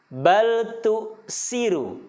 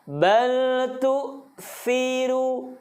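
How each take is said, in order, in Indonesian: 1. Konsonannya berbunyi 's' yang mendesis. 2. Konsonannya berbunyi 'th' yang lembut. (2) "menggunakan huruf tha"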